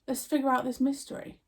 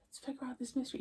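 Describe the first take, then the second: First: Said in the usual way. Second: A quiet echo of her own line, almost to herself; soft echo. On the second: Shown as a demonstration. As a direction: repeat it much softer, like an afterthought.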